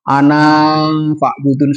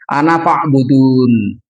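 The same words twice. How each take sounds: First: The last vowel of 'ana' is drawn out long. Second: The last vowel of 'ana' is short. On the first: The speaker calls it wrong. "dibaca panjang ... salah" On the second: The speaker calls it right. "cepet bacanya itu"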